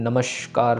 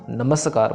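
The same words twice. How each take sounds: First: The middle consonant is an sh sound. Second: The middle consonant is a plain s sound. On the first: The speaker calls it wrong. "श भी नहीं करना ... जैसे हिंदी में normally होता है" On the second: The speaker calls it right. "नमस्कार पढ़ना"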